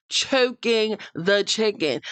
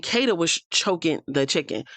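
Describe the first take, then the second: First: CHOKING THE CHICKEN drawn out slowly, each word higher; pointed repetition. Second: Said in the usual way. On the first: Real, not acted. Host repeating innuendo to viewers, "Choking the chicken" slow and pointed. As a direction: stretch out "Choking the chicken" for emphasis.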